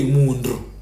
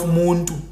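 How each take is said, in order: First: "muntu" turned into mundru; ndrondroza form. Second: "muntu" with a clear t; plain nt form. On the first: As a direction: say "muntu" with ndr in place of nt. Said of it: "would say muntu". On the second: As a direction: say "muntu", sounding a clean nt. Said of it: "instead of muntu". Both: Shown as a demonstration.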